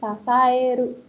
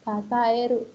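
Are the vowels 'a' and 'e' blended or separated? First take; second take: blended; blended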